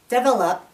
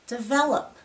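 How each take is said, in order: First: The stress falls on the first syllable. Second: The stress falls on the second syllable. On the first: The speaker calls it wrong. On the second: The speaker calls it right.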